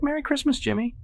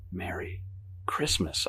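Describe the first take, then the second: First: Very high falsetto squeal; shrieked greeting. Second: Soft, halting holiday greeting; unenthusiastic reply. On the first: Evelyn greeting another guest, shrieking high. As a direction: squeal the holiday wish excitedly. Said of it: "she shrieks". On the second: Guest trapped under mistletoe, soft and unenthusiastic. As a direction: say it quietly, with no enthusiasm. Reluctant reply to her shrieking. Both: A narrator's reading.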